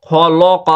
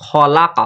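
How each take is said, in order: First: খলক with rounded "o" vowels, kho-lo-qo; mispronounced vowels. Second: খলাক with an open "la" in the middle; correct open vowel. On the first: Teacher showing the class the mistake, rounded "o" in খলক. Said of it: "খলক যদি না হয়". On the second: Teacher correcting the class, open "la" in খলাক. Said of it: "লাক হবে". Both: Shown as a demonstration.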